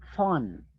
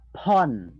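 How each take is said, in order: First: The ph is said as an f sound. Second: The ph is said as a p sound. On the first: The speaker calls it right. "It's phone" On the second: The speaker calls it wrong. "not phone"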